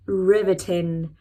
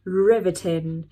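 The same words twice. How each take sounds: First: "riveting" drawn out slowly, each syllable clear, a bit louder; slow clear pronunciation. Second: "Riveting" said slowly and firmly, syllable by syllable; slow clear pronunciation. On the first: Teacher to students, slowly pronounces the word. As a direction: say "riveting" slowly for learners to copy. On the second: Teacher repeats the word slowly for learners to copy. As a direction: model "Riveting" slowly for copying. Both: Shown as a demonstration. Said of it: "I'm pronouncing the words slowly".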